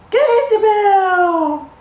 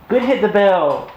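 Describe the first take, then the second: First: Very high, slow, louder praise; ecstatic praise. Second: A bright, higher, drawn-out praise for the puppy; excited praise. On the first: Owner over the moon at puppy ringing bell, slow high squeal. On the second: Owner praising puppy for ringing the bell, excited. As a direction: cheer the puppy on, slowly. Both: Real, not acted.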